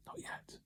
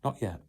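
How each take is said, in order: First: Whispered not yet; hushed whispered refusal. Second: Soft, much quieter refusal; calm low not yet. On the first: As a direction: breathe it with no voice. Master refuses the suffering cup. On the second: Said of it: "he only smiled and said". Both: Acted.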